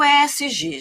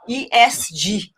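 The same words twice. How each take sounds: First: The letter names are spoken in Portuguese. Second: The letter names are spoken in English. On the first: This is how the speaker herself says it. "Eu sou mineira, falo E S G" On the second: This follows the acronym's original language. "da origem da sigla, que é a origem em inglês"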